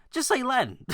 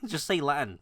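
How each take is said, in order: First: High, exasperated "just say Latin"; incredulous high-pitched punchline; emphatic punchline. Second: Said in the usual way. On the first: Real, not acted. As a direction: throw "Latin" up high like the obvious answer. Punchline advice.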